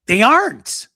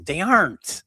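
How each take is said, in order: First: AREN'T high, loud and stretched; louder, higher stress on aren't; insistent repeat. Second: AREN'T with a falling punch; firm stress on aren't; emphatic agreement. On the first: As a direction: wail "aren't" in exasperation. Repeats it more forcefully. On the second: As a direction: state "aren't" firmly. First take, then repeats more forcefully. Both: Real, not acted.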